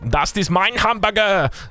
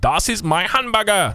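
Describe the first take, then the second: First: The word 'mein' sounds like English 'mine'. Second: The word 'mein' sounds like English 'my'. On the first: The speaker calls it right. "It's actually mine" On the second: The speaker calls it wrong. "I didn't pronounce the "my" prof perfectly"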